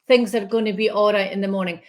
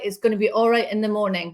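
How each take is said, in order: First: It is said in the speaker's usual accent. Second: It is said in a put-on Northern accent.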